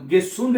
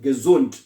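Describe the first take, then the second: First: The middle consonant is a hissing s sound. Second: The middle consonant is a buzzing z sound. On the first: The speaker calls it wrong. "गेसुंड नहीं कहना" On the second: The speaker calls it right. "एस को हम जेड की आवाज में प्रोनाउंस करते हैं"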